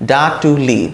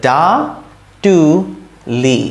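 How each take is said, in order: First: Said in the usual way. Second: ডা, টু, লি with a long pause after each; syllable by syllable. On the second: Shown as a demonstration. Teacher building a word for learners, syllable by syllable. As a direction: separate the three sounds completely. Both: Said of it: "তাহলে কি হতো".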